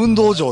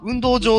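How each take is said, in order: First: It uses a Kansai-style pitch accent. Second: It uses a Kanto-style pitch accent. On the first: "関西の人は運動場って言うんですよ" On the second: "関東の人は運動場って言うんですよね"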